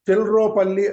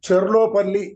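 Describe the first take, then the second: First: The l sound comes before the r. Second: The r sound comes before the l. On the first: "చెల్రోపల్లి అనేవారాయన" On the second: "ఈ చెర్లోపల్లి అనే మాటని"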